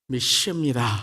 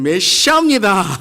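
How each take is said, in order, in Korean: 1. 강하게 힘주어 강조해서 말합니다. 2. 훨씬 더 세고 큰 목소리로 말합니다. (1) "믿습니다를 어떻게 우리가 말하죠?" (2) "그것도 안 되면"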